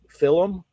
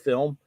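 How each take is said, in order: First: The word has a Scottish-style pronunciation. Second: The word has a standard pronunciation.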